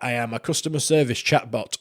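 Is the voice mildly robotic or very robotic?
mildly robotic. The voice sounds only mildly robotic.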